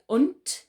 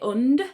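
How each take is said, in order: First: The word ends with a hard T sound. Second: The word ends with a soft D sound. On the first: The speaker calls it right. "we say und with a T sound" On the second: The speaker calls it wrong. "We don't say und"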